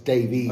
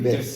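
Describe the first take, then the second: First: The name ends with a long 'vees' sound. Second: The name ends with a short 'vis' sound. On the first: "His name's got an E in it, so it's Davies" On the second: "he likes to be called"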